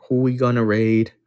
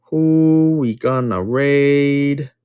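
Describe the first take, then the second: First: Said in the usual way. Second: "Who we gonna raid?" stretched very slow, sing-song; drawn-out question. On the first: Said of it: "repeat in drawn-out voice". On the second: Shown as a demonstration. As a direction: drag every word of "Who we gonna raid?" out slowly. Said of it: "repeated stretched out".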